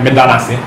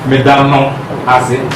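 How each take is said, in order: First: The words are run together into one contracted form. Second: The words are said separately, with full syllables. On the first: The speaker calls it right. "you'll say it like medanase" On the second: The speaker calls it wrong. "you wouldn't say it like that"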